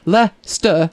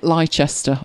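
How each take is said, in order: First: The name is said like 'Lester'. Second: The name is said following its written letters. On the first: The speaker calls it right. "as in L-E-S-S-T-E-R" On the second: The speaker calls it wrong. "Only she pronounced it Leicester all the way through it"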